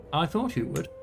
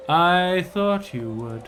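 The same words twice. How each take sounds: First: Said in the usual way. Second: Drawn out. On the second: Shown as a demonstration. Ruler answering his advisor, slow and drawn out. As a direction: say "I thought you would" very slowly, stretching each word.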